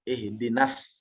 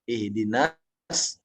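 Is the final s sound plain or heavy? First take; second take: plain; heavy. First: The final s sound is plain and light. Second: The final s sound is thick and heavy. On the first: "Seperti kita baca S biasa" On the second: "yang ditebalkan"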